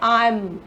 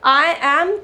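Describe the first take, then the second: First: It is said quickly as one contracted word. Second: It is said as two full words. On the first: "थोड़ी सी speed fast रखनी है" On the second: "की जगह"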